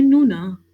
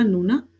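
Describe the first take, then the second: First: नूना louder with a gentle curving lilt; नूना with a light lyrical rise and fall; curvy lilting tone. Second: Said in the usual way. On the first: Shown as a demonstration. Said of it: "हल्का सा जो है वो curvy form लेती है". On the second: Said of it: "एक तो हमने सिंपल बोला नूना".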